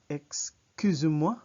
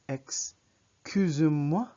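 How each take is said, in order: First: It is said at a normal, quicker pace. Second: It is said at a slower pace.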